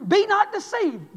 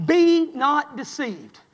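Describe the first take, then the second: First: "be not deceived" high, slow and loud; rising preacher cry. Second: "Be not deceived" drawn out slowly, each word weighted; slow emphatic scripture. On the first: Preacher builds on scripture. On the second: Preacher quoting scripture slowly. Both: Real, not acted.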